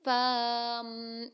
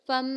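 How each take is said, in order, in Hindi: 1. गुन्ना से पहले वाला स्वर लंबा खींचा जाता है। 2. गुन्ना से पहले वाला स्वर छोटा रहता है। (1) "जैसे हम कर पड़े अभी फम ऐसे नहीं करना हमें" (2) "गुन्ना एक अलिफ के बराबर करना है और गुन्ना से पहले हुरूफ को लंबा ना किया जाए"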